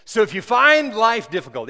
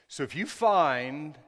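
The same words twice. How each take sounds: First: The line read again much louder and higher; louder reread. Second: Said in the usual way. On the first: Shown as a demonstration. Preacher rereads his text to the church, loud and high. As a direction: punch the reread with full preaching force. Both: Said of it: "I gotta read that again".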